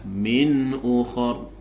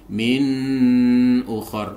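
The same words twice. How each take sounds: First: The n sound is short and clear. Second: The n sound is held too long. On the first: The speaker calls it right. "Yang betul adalah min ukhur" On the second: The speaker calls it wrong. "tidak boleh ditahan, tidak boleh dibaca min ukhur, ini yang salah"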